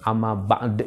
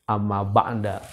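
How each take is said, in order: First: The last word ends with no final vowel. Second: The last word ends with an a vowel. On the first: "jangan diwakafkan. Amma ba'd jangan" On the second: "Boleh sebenarnya"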